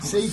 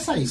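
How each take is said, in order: First: It is said like the English word 'safe'. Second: It is said with an Arabic-style vowel, like 'Saif'. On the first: "yo pensé que era Safe como grabar archivo" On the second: "Yo diría Saif"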